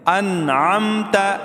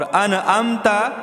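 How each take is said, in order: First: The n is clear with no vowel after. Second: The n carries an extra vowel after it. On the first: The speaker calls it right. "आइन को मीम के साथ मिलाएंगे" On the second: The speaker calls it wrong. "ये अनअमता नहीं है, नून को नहीं हिलाएंगे"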